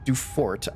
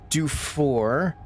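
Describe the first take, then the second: First: The final T is sounded. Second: The final T is silent. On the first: The speaker calls it right. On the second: The speaker calls it wrong.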